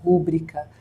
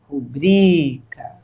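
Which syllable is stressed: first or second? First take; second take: first; second. First: The stress is on the first syllable. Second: The stress is on the second syllable. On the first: The speaker calls it wrong. "Muitas pessoas pronunciam rúbrica, mas essa pronúncia é equivocada" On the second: The speaker calls it right. "O certo é rubrica"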